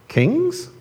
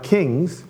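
First: It is said as a questioning rise. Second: It is said flat, as a plain title.

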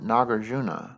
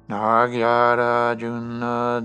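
First: The name is said in its shorter form. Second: The name is said in a longer form.

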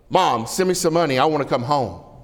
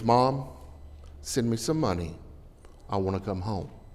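First: The letter is read in a harsh, demanding tone. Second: The letter is read in a gentle, pleading tone. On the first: The son sounds rude and demanding. The speaker calls it wrong. "He better not talk to me that way" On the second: The son sounds sincere and homesick. The speaker calls it right. "I'll give him every dime I've got"

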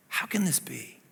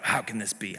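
First: It is asked as a genuine, amazed question. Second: It is asked in a snarling, hostile way.

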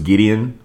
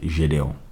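First: The name is pronounced the English way. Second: The name is pronounced the French way. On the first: "the name is just Gideon" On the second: "in French, that's how you say it"

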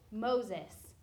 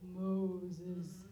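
First: It is said in a normal speaking voice. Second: It is said in a put-on cartoonish voice.

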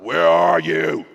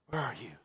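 First: It is asked harshly and accusingly. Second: It is asked gently and lovingly.

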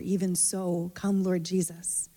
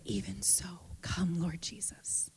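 First: It is said in a louder voice. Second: It is said in an excited whisper. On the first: "And then the next is a little louder" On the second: "The energy of an excited whisper"

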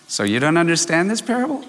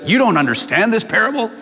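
First: The voice sounds warm and teasing. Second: The voice sounds harsh and scolding. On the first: The listeners are being gently teased. "smiling with a little twinkle in his eye" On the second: The listeners are being rebuked. "Jesus could have said, ... if you hear it in that tone"

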